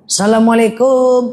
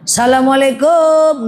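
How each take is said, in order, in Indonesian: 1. Salam itu diucapkan dengan nada biasa. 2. Salam itu diucapkan lebih keras, dengan nada lebih tinggi.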